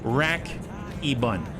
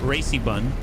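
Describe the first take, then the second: First: The first word sounds like 'rack-ee'. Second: The first word sounds like 'racy'. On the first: The bun is a rotary AC bun. "What I actually meant is it's a rack e-bun" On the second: The bun is fast and races everywhere. "I thought it was Racy Bun"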